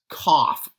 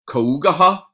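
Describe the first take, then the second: First: It is said as one short syllable, kaf. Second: Every letter is sounded out in several syllables. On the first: The speaker calls it right. "it's pronounced cough, as if it's spelled K A F" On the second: The speaker calls it wrong. "that would be a phonetic pronunciation of it"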